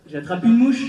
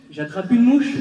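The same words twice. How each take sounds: The two takes are said the same way.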